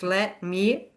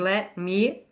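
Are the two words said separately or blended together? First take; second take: separately; separately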